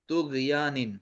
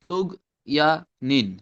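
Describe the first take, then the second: First: The word is said smoothly in one go. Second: The word is broken into separate syllables.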